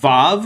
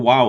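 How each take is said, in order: First: The word begins with a v sound. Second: The word begins with a w sound. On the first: This is the usual modern way to say it. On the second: This is how it was probably said in antiquity.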